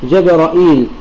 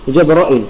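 First: Opening a, hamza followed by long ī. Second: Opening a, hamza with short i, no long ī. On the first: "بفتح الجيم والراء وإثبات الهمزة المكسورة وإثبات الياء بعدها" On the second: "بفتح الجيم والراء وإثبات الهمزة المكسورة وحذف الياء"

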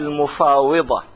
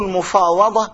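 First: The vowel after the w is "i". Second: The vowel after the w is "a". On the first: The speaker calls it wrong. "لا بكسرها" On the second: The speaker calls it right. "بفتح الواو"

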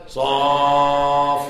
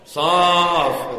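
First: The vowel is drawn out long. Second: The vowel is kept short. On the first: The speaker calls it wrong. "Mana ada huruf alif di situ?" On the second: The speaker calls it right. "Itu hurufnya pendek"

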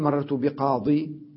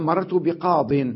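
First: The last word ends with a long 'ee' vowel. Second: The last word ends without a long 'ee' vowel. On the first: The final ya is kept, which is permitted. "لكن يجوز تقول مررت بقاضي" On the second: The final ya is dropped, the preferred form. "ونحذف الياء، هذا الأرجح"

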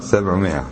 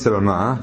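First: The written alif is silent, not voiced. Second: The written alif is voiced as a long vowel. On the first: The speaker calls it right. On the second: The speaker calls it wrong.

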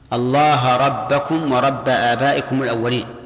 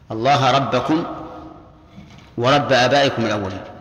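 First: The word endings carry accusative a-vowels. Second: The word endings carry nominative u-vowels. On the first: It stands in apposition to the preceding phrase. "وقراءة الثانية بالنصب" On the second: It starts a new sentence naming who the Lord is. "الأولى الرفع على أنها خبر مبتدأ محذوف"

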